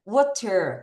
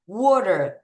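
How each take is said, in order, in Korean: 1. 이 단어는 한 소리씩 또박또박 조심스럽게 발음해요. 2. 이 단어는 편안하고 자연스럽게 발음해요. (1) "water 해도 되지만" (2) "더 자연스럽게 발음할게요"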